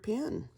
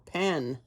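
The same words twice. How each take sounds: First: The vowel sounds close to the one in 'pin'. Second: The vowel sounds clearly like the one in 'pen'. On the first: The speaker calls it wrong. "I heard myself saying pin the other day" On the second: The speaker calls it right. "It's not a pin, it's a pen"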